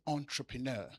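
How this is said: It is said in a posh, put-on accent. The speaker is trying to sound refined. "I say entrepreneur"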